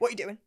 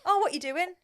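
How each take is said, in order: First: It is said in an angry tone. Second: It is said in a friendly, casual tone.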